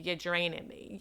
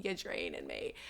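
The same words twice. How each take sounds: First: Said in the usual way. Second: Mock deep voice. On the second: To the listeners about small talk, a sudden deep low repeat. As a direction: repeat it in a suddenly much lower, deadpan voice.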